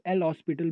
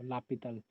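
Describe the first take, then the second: First: It sounds like the word hospital, with an s. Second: It is said without an s sound. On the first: This is how many people say it. The speaker calls it wrong. "L hospital भी बोलते हैं शायद बहुत लोग" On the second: This is the correct pronunciation. The speaker calls it right. "That is the correct pronunciation of that"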